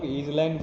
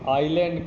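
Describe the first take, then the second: First: It is said with a z sound. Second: It is said with no z sound. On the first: The speaker calls it wrong. "बहुत सारे लोग ईजलैंड पढ़ते हैं" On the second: The speaker calls it right. "ये silent होता है"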